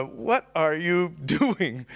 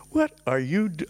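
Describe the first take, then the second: First: Slow, amused taunt broken by a laugh; mock his other self while chuckling; laughing mockery. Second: Said in the usual way. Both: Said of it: "and he's laughing".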